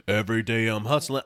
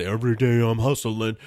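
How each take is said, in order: First: Said in the usual way. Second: Chanted hustling. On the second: Retold or imitated. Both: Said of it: "comedy special it was".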